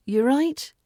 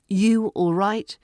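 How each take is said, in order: First: "You're right?" lifting clearly at the end; rising tone. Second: "You all right?" with a relaxed rise at the end; rising tone. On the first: Teacher showing the relaxed rise on "You're right?". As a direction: make "right" rise like a light question. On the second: Teacher showing a relaxed rising greeting. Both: Shown as a demonstration. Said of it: "Rising tone, and it's relaxed".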